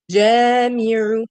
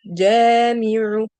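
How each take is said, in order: First: Jamiru read slowly, the a stretched long; slow louder Jamiru with long fatha; prolonged vowel. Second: Jamiru slow and loud, the a drawn out; prolonged vowel. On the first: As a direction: hold the first vowel of Jamiru for two beats. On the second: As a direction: stretch the a in jamiru two beats. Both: Shown as a demonstration. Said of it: "You see the prolongation".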